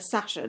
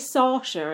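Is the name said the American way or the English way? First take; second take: English; American. First: The name is said with an English pronunciation. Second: The name is said with an American pronunciation. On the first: This is how the speakers would say the name. "instead of Sasha" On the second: This is how others say the name. "They say Sasha"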